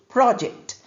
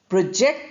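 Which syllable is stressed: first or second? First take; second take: first; second. First: The stress is on the first syllable. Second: The stress is on the second syllable. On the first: It is used as a noun. "The noun form is pronounced as project, stress on the first syllable" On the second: It is used as a verb. "the verb form which we are using here is project. Project, second syllable stress"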